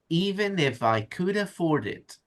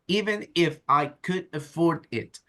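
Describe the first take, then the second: First: The words run together without any pauses. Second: Each word is separated by little pauses. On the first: The speaker calls it right. "I'm making connections with another word" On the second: The speaker calls it wrong. "You're saying, ... That's like a robot"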